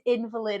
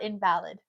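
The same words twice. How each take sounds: First: The stress is on the first syllable. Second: The stress is on the second syllable. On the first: A person who cannot walk. The speaker calls it right. "given the context, it's in" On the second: Something that is not valid. The speaker calls it wrong. "It's not invalid"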